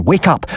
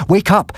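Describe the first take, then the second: First: High urgent call, rising at the end; sudden alarm, a high rising shout; urgent cry. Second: Urgent cry. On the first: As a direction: call out to wake the house. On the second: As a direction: shout it harder the second time. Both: A narrator's reading. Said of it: "I cried".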